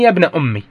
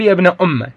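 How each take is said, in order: First: "أمي" ending in an i sound; kasra on the mim. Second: "أمه" ending in a short open a; fatha on the mim. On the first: Teacher shows students the second dialect form, kasra on the mim. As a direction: close "أمي" on i after the doubled m. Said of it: "وكسرها". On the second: Teacher shows students the first dialect form, fatha on the mim. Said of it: "فتح الميم". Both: Shown as a demonstration.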